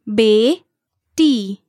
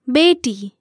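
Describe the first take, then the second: First: The word is said slowly, one syllable at a time. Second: The word is said smoothly at normal speed. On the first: "syllable by syllable" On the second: "again at natural native speed"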